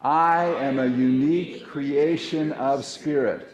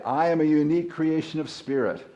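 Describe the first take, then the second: First: Slow, louder affirmation with conviction; loud proclamation. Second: Said in the usual way. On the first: Shown as a demonstration. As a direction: proclaim it to the room, slowly. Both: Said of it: "Let's say".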